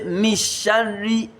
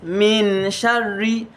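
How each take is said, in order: First: The n is merged away and not heard. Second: The n is pronounced fully and clearly. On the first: "I did not say mishari" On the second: "I did not say min sharri"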